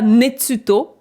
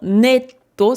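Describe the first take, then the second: First: A full tsu syllable sits in the middle. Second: A doubled t sits in the middle. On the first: The speaker calls it wrong. "c'est pas netsuto" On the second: The speaker calls it right. "c'est vraiment netto"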